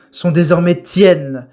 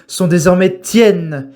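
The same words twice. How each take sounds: The two takes are said the same way.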